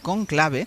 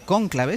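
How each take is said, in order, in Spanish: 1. El acento está en la segunda sílaba. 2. El acento está en la primera sílaba. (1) "deberíamos decir conclave" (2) "no cónclave; los españoles tenemos la manía de poner esdrújulas"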